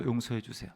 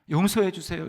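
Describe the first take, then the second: First: 용서해 주세요 dropped much softer, trailing off; the plea repeated quietly, almost to herself. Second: Lightly voiced plea, 용서해 leaned on with a falling end; a touch of a tearful mother-in-law begging God; pleading for forgiveness. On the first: Retold or imitated. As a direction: let the second 용서해 주세요 fade into a soft murmur. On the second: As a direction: beg 용서해 주세요 with a mild falling plea. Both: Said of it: "울면서 회개하셨대요".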